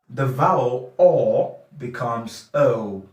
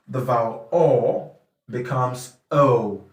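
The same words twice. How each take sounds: No difference in how they are said.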